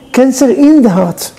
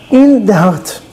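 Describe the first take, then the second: First: Slow, weighted Cancer in the heart; slow grave repeat. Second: Said in the usual way. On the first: Shown as a demonstration. Rabbi stressing the wife's illness to listeners, slow and grave. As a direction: let Cancer in the heart sink in slowly.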